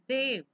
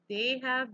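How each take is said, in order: First: The two words merge into one short syllable. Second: Both words are said fully and separately. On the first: "becomes they've" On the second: "They have becomes"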